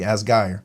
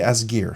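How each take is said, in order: First: The name is pronounced in a German way. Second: The name is pronounced in an English way. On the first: "If it was German with the E I, it'd be Asgeir" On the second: "but I'll say Asgear"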